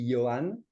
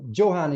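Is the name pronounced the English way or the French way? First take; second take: French; English. First: The name is pronounced the French way. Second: The name is pronounced the English way. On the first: "I could pronounce it the French way, and that would be Johan" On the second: "So Johan is completely fine"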